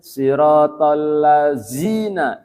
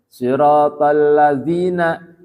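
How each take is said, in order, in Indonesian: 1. Kata itu diucapkan dengan bunyi 'z'. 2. Kata itu diucapkan dengan bunyi 'dh'.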